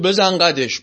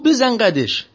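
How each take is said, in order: First: A hint of a bully's swagger; bullying swagger. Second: Higher, tense nervous echo; a scared driver trying to sound bold. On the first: King to frightened carriage driver, lightly mock bully. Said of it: "با همون حالت قلدریش". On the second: Retold or imitated. Carriage driver answering the king, higher and nervous. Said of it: "میلرزید".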